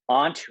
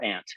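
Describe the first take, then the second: First: "Aunt" as AHNT; broad "ah" vowel in "Aunt", rhyming with "want"; broad-A pronunciation. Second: "aunt" as ANT; short A in "aunt", as in "pants"; short-A pronunciation. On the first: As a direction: say "Aunt" with an open "ah". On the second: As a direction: say "aunt" exactly like the insect "ant". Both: Shown as a demonstration. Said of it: "where the country gets divided".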